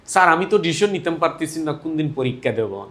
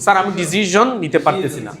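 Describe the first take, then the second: First: ডিসিশন said with SH, as learners do; mispronounced decision. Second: ডিসিশন with a buzzing ZH in the middle; correct decision. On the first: Retold or imitated. Teacher mimics a student excusing himself, ডিসিশন wrongly with SH. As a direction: imitate a student slipping SH into ডিসিশন. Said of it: "ওইটাই ভুল উচ্চারণ হয়ে যায়". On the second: Shown as a demonstration. Teacher models the student's sentence, ডিসিশন correctly with voiced ZH. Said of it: "কি বলতে হবে?".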